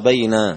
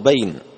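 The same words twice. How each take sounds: First: The vowel after the n is lengthened. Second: The vowel after the n is short. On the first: This is the form with the vowel drawn out. "وأشبعت فتحة النون فصار بين" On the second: This is the original form of the word. "أصله بين"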